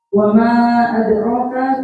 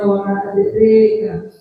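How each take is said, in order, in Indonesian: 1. Vokal setelah r adalah a terbuka biasa. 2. Vokal setelah r condong ke e.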